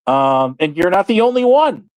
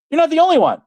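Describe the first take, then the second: First: Said in the usual way. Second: "only" pushed up high and hard; emphatic repeat. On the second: Real, not acted. Ranting at a rival, "only" leaps up high. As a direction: hit "only" much higher, like a jab.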